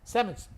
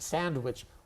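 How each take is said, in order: First: The middle is said with an m sound. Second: Every sound of the word is fully pronounced. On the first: "like S A M I C H" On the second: "it's too much effort"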